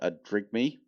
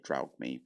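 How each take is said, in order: First: The first syllable sounds like 'drig'. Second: The first syllable sounds like 'draug'. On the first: The speaker calls it right. "I'm actually saying it properly right now" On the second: The speaker calls it wrong. "I always used to say Draugme"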